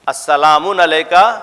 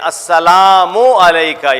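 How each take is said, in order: First: The first word ends with an added n. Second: The first word ends in a plain u. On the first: The speaker calls it wrong. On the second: The speaker calls it right.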